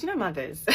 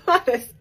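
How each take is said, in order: First: Said in the usual way. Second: Mothers laughed out high and loud; a loud laughing repeat of mothers. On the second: Real, not acted. Repeats mothers, second time laughing.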